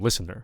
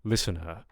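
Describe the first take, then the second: First: The final R is clearly pronounced at the end. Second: The final R is dropped and the vowel drawn out. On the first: "you will have to have that rhoticism listener" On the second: "we want a drawn out uh listener"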